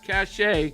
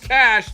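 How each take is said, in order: First: It is said as two syllables, ending in ay. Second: It is said as one syllable, like cash. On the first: The speaker calls it wrong. "not cachet" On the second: The speaker calls it right. "I said cash"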